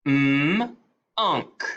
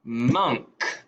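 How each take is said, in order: First: "M-unk" split, m then unk; segmented into onset and rime. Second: Said in the usual way. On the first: Shown as a demonstration. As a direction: sound out "M-unk" in two parts.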